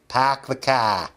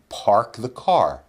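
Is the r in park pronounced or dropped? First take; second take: dropped; pronounced. First: The r sounds are dropped, Boston style. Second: The r sounds are clearly pronounced. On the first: "if they have that accent, they'll say" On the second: "they tell people in Boston to say"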